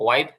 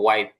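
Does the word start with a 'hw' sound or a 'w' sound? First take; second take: w; w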